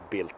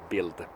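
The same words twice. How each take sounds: First: The word ends with a voiceless T sound. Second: The word ends with a voiced D sound. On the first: "pronounced Bild because it's, it's German and they can't spit out the toned D in the end" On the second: "It's spelled Bild"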